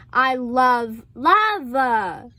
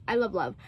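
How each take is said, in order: First: Second "love" stretched out very slowly; drawn-out LOVE. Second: Low, soft "love love", falling away; low, soft murmur. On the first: Declaring a love of romance, LOVE drawn out. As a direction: hold the last "love" long and emphatic. Emphatic last repeat. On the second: Gushing about romance, quietly to oneself. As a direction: say it small and low. Softly repeated take. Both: Real, not acted.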